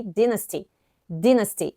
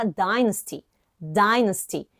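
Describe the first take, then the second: First: Dynasty with DIN, short i; British dynasty. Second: Dynasty with DIE, long i; American dynasty. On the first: Teacher showing the British dynasty. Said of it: "no British English, we say". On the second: Teacher showing the American dynasty. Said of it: "no American English, a gente fala". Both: Shown as a demonstration.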